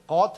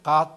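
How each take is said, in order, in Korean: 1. 미국 영어 억양으로 발음됩니다. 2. 한국 영어 억양으로 발음됩니다. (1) "미국은 God 하는데" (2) "우리는 God 하잖아요"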